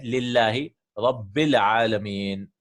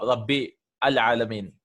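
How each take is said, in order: First: Rabbil Alameen slowly, with the Lam of Al skipped and the words run together; joined reading. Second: Rabbi Al Alameen with a stop before Al, each word sounded apart; Rabbi, then a clear stop, then Al Alameen; separated reading. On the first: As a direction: glide straight from Rabbil into Alameen with no stop. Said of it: "Because you're joining Rabbil Alameen". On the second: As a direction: break after Rabbi and say Al in full like a new word. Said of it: "If it is Qata, we have to stop". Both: Shown as a demonstration.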